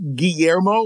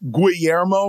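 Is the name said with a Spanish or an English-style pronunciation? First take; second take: Spanish; English. First: The name is said with a Spanish pronunciation. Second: The name is said with an English-style pronunciation. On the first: The speaker calls it right. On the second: The speaker calls it wrong. "without saying Guillermo or some stupid shit like that"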